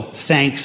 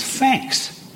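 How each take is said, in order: First: Said in the usual way. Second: Cockney "thanks" starting with an F; slow Cockney "fanks" for "thanks"; Cockney accent. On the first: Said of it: "T H at the beginning of words". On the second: Shown as a demonstration. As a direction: turn the TH of thanks into F, Cockney style. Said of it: "becomes an F".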